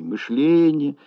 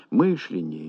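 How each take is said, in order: First: «мышление» stressed on the second syllable. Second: «мышление» stressed on the first syllable; early stress, МЫШление; stress on МЫШ. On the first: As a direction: hit «ле» in «мышление», not «мыш». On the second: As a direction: hit «мыш» at the start of «мышление». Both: Shown as a demonstration. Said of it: "Колебания в ударении слов".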